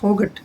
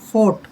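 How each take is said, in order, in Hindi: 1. t से पहले g की ध्वनि सुनाई देती है। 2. t से पहले g की कोई ध्वनि सुनाई नहीं देती। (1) "इसको फोगट नहीं पढ़ेंगे" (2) "जी एच साइलेंट रहेगा"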